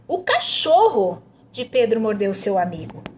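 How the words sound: The emphasis falls on "cachorro". "tá pedindo para enfatizar o cachorro"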